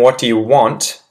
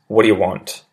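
First: Every word is said fully and distinctly. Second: The words run together quickly and reduced. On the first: "correct, proper, well-enunciated English first" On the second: "the sped-up sort of change in pronunciation"

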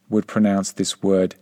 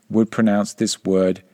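Both takes have the same delivery.

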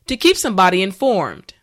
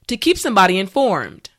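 No difference in how they are said.

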